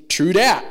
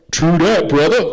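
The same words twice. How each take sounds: First: Punchy, emphatic "true dat"; early two-thousands slang. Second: Loud, hyped-up slang impression; early two-thousands slang. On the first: Shown as a demonstration. Youth teacher quoting slang to teenagers, early two-thousands slang. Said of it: "I would say it like this". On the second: Imitating someone agreeing in the early two thousands, loud hyped slang. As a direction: boom it out like a slangy buddy. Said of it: "someone would say that and go".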